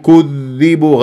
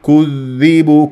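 The two takes are said the same way.

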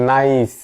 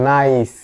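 No difference in how they are said.

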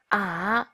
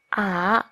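First: The pitch dips low, then rises. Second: The same.

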